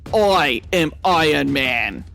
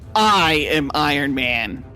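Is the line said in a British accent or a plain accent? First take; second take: British; plain. First: It is said in a British accent. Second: It is said in the speaker's ordinary accent.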